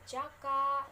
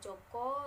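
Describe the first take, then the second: First: The vowels are pronounced like a. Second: The vowels are pronounced like o. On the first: "ada juga jaka" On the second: "yang dibaca dengan joko"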